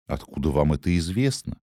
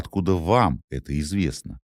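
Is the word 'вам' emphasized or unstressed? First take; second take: unstressed; emphasized. First: The word 'вам' carries no special stress. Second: The word 'вам' carries strong stress.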